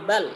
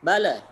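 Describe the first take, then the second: First: The final l stops cleanly without added vowel. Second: The final l bounces with an added vowel. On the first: The speaker calls it right. "tapi bal" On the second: The speaker calls it wrong. "tidak boleh mantul ya. Jangan bala"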